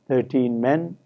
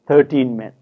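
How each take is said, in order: First: The stress in thirteen is on the second syllable. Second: The stress in thirteen is on the first syllable. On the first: The speaker calls it wrong. "rather than thirteen men" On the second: The speaker calls it right. "in actual speech, in native English, we hear thirteen men"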